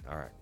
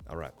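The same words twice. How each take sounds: The two takes are said the same way.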